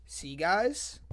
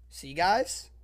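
No difference in how they are said.

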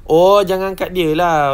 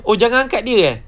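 First: "Oh, jangan angkat dia lah" loud, slow and falling; loud, stretched falling statement on "jangan angkat dia lah"; dawning realisation. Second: "Oh, jangan angkat dia, eh?" high and loud, as a question; high, loud checking tune ending on "eh?"; questioning realisation. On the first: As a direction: draw out "Oh" loudly, falling through to "lah". Now understands the warning. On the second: Checks meaning of the warning. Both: Real, not acted.

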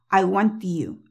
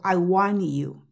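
First: 'I want you' with tongue stopping at T; T made, not exploded. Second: Slow 'I want you' as wan-you, no T; T left out. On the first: Teacher showing the tongue position, T made unexploded. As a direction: hold the T of 'want' behind the teeth into 'you'. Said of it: "Posicionando la lengua como si fueras a decir la T". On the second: Teacher comparing for students, no T at all. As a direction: drop the T of 'want', N gliding into 'you'. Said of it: "como si no estuvieras haciendo ninguna T". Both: Shown as a demonstration.

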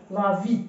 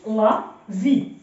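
First: Said in the usual way. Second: Slow LA, pause, then VI: "لا في"; syllable by syllable. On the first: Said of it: "كتحاول تنطقها بحال ليا". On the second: Shown as a demonstration. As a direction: sound out "لا في" in two separate syllables. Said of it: "ولكن الحرف اللي قبل أو كيتنطق". (قراءة "لا في" مقطع بمقطع ببطء)

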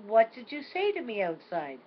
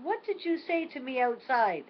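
First: A child's insistent question, lightly voiced; grandma imitating the grandson's question; grandson asking, insistent. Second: Put-on a child's mildly frustrated repeat, higher; mock a toddler's impatience, repeating himself; frustrated grandson. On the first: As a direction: press the question like a little boy. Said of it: "he said". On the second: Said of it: "he's getting a little bit frustrated".

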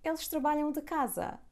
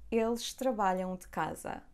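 First: Eles trabalham de casa asked much higher, falling on casa; high-pitched asking tune, peaking on trabalham; question intonation. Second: Said in the usual way. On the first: Shown as a demonstration. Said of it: "Now let's make it question". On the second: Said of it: "It's an affirmative sentence".

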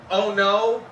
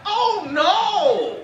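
First: Said in the usual way. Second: Much higher, sing-song panic; imitating wife's high alarmed oh no. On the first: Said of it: "but she likes to say it like this". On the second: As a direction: cry it out like disaster struck. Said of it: "she likes to say it like this".

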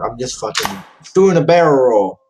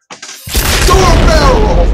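First: Said in the usual way. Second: High, loud, drawn-out yell; yelled repeat. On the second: Real, not acted. Gamer narrating a failed jump, drawn-out yell. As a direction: bellow it, stretching every word.

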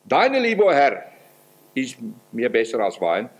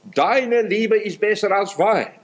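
First: Emphatic prayer voice on Deine Liebe; stress on Deine Liebe. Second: Higher and slower, deine stressed; raised, unhurried verse quote; verse quoted higher. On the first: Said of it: "es gibt einen Unterschied". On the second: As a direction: lift the line up high and lean on deine. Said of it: "laut Hohelied, Kapitel eins und Vers zwei". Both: Acted.

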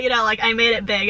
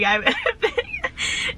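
First: Said in the usual way. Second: Slowed down, giggling through "made it big"; amused by her own joke; laughing at herself. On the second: Real, not acted.

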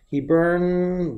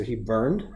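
First: "he burned," stretched very slow, weighing "burned"; drawn-out word. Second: Said in the usual way. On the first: Shown as a demonstration. Teacher testing the verb form aloud, slow and drawn out. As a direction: draw out "he burned," while deciding on the past tense. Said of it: "but no, it happened in the past". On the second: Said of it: "it happened in the past".

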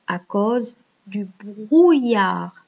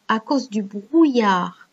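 First: "brouillard" said slowly, syllables drawn out; pronunciation model. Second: Said in the usual way. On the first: Shown as a demonstration. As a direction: slowly model how "brouillard" sounds, stretching it. (« brouillard » prononcé lentement, en étirant les syllabes) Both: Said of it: "C'est comme ça que ça se prononce".

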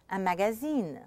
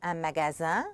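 First: "magazine" French-style, final N sounded; een ending. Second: "magasin" ending in a nasal vowel, rising; French "un magasin" with silent final N. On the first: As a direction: end "un magazine" on een, falling. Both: Shown as a demonstration. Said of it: "make a difference in meaning between words".

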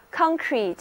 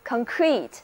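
First: Concrete as a noun, CON stressed and higher; stress on first syllable. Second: Concrete as a verb, weak CON, stressed CRETE; stress on second syllable. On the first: Teacher contrasting word classes for learners, concrete stressed on first syllable. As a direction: hit CON in concrete, let the second syllable drop. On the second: Teacher contrasting word classes for learners, concrete stressed on second syllable. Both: Shown as a demonstration. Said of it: "重音不同，词性不同".

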